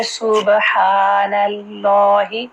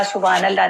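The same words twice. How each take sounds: First: सुबहानल्लाहि slow, each syllable clear; drawn-out सुबहानल्लाहि, clear "b" and "h"; correct careful reading. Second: सुबहानल्लाह run together quickly with short vowels; quick careless सुबहानल्लाह, syllables unseparated; rushed wrong reading. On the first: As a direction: stretch सुबहानल्लाहि with a long "haa" and "laa". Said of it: "नहीं पढ़ेंगे". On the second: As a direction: hurry through सुबहानल्लाह, swallowing the "ha". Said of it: "सुबहानल्लाह नहीं पढ़ेंगे". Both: Shown as a demonstration.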